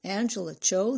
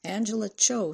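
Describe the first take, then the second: First: Lightly mocking sing-song name; a hint of a teasing brother; older boy teasing. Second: A hint of a small girl, pitched up; lightly voiced little caller; small child's voice. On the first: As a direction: repeat the name to tease. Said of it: "the older boy said". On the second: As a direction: give the name in a small, raised voice. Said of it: "said a small voice". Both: A narrator's reading.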